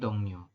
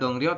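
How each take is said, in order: First: The second syllable starts with an n sound. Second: The second syllable starts with an r sound. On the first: The speaker calls it right. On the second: The speaker calls it wrong.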